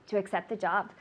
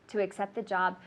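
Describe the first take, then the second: Both takes have the same delivery.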